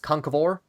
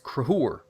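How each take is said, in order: First: The name is said fully, with three syllables. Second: The name is said shortened, with two syllables. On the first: This is the older pronunciation, suited to the period. "would have been pronounced once upon a time as" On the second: This is the modern pronunciation. "is now generally rendered as"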